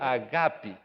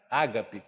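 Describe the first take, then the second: First: It is said the original Greek way. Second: It is said the common Portuguese way.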